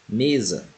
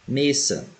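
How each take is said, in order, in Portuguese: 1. A consoante do meio tem som de z, com vibração. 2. A consoante do meio tem som de s, sem vibração. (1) "porém pronunciamos com som de Z" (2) "a letra S em espanhol sempre terá som de S"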